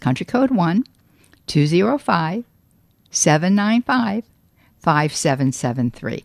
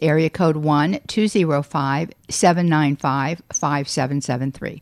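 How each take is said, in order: First: The number is read more slowly. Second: The number is read at normal speed.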